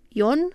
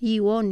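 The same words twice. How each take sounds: First: The i and o merge into one syllable. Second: The i and o form two separate syllables. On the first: "ci cu diftong" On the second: "nu cu hiat"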